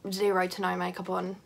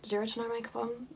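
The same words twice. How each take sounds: First: Said in the usual way. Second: Questioning her own words back, a little quieter; incredulous question. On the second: Real, not acted. Vlogger doubting the phrase she just said, puzzled. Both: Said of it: "That does not make any sense".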